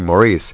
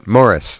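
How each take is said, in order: First: The name is said the American way. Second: The name is said the non-American way. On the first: "Americans say Maurice" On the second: "now you pronounced it correctly"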